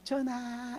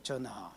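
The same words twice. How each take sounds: First: It is said cheerfully, smiling. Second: It is said sullenly in a low voice.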